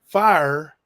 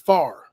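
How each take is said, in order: First: The word is said the standard way. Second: The word is said to sound like far. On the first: "the word fire" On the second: "I believed and used to say the word fire as far"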